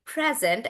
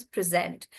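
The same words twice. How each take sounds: First: "present" with a stressed first syllable; stress on PRE. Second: "present" with the stress on SENT; verb stress. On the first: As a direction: hit PRE in "present", as a noun. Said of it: "the stress is on pre". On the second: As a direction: put the weight on the end of "present". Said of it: "then it becomes a verb". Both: Shown as a demonstration.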